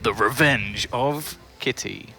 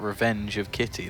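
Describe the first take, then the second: First: It is said in a dramatic, menacing way. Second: It is said in a flat, unthreatening way. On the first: The speaker calls it right. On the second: The speaker calls it wrong.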